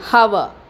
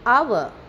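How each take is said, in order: First: The word begins with an audible h sound. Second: The word begins with a vowel, no h sound. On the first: The speaker calls it wrong. "We don't say hour" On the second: The speaker calls it right. "H remains silent here"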